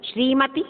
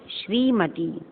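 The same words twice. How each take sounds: First: "श्रीमती" with a high rising end; lifted last syllable on "श्रीमती"; misspelt form demonstrated. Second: Said in the usual way. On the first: Shown as a demonstration. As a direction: read "श्रीमती" as a doubtful wrong version. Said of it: "अशुद्ध, अशुद्ध". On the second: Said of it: "शुद्ध".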